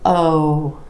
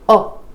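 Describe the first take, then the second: First: The vowel is long with rounded lips. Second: The vowel is short and clipped. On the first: The speaker calls it right. "You want O" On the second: The speaker calls it wrong. "You don't want it to be oh"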